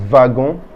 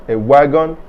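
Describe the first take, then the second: First: "wagon" the French way, starting with a v sound; French pronunciation. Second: Said in the usual way. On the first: Shown as a demonstration. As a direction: say "wagon" as va-gon, ending on a nasal vowel. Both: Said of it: "Notice that I say".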